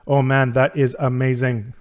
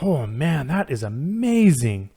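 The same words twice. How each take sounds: First: The voice is flat, with little pitch variation. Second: The voice is lively, with varied pitch. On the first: "instead of" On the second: "be more expressive"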